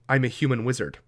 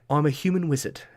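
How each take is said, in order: First: It is said in an ordinary, plain speaking voice. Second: It is said in a distinct put-on character voice. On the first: The player speaks as themselves. The speaker calls it wrong. "my dialect is this" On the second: The character is speaking. The speaker calls it right. "this is how I sound"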